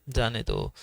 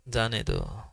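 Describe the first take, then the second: The two takes are said the same way.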